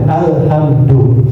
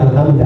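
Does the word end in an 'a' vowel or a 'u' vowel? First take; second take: u vowel; a vowel. First: The word ends with a 'u' vowel. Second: The word ends with an 'a' vowel. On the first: The speaker calls it right. "Maka bacalah alhamdu" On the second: The speaker calls it wrong. "bukan alhamda"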